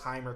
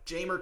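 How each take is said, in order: First: The name starts with a breathy H sound. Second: The name starts with a hard J sound. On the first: This is how Spanish speakers would say it. "A Spanish speaking country would say that's Heimer" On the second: This is how everyone commonly says it. "everyone pronounces it with the hard J"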